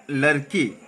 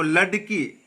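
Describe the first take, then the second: First: लड़की with a flapped r sound, lower; correct pronunciation. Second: लड़की with a hard d; wrong pronunciation. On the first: Teacher correcting a student, correct pronunciation. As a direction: tap the r lightly in लड़की. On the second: Teacher showing the slip, wrong pronunciation. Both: Shown as a demonstration. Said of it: "लड़की नहीं बेटा".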